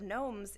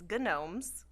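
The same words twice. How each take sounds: First: The starting G is silent. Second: The starting G is pronounced. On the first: There is only one gnome. "instead of gnomes" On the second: There is more than one gnome. "do you pronounce the G?"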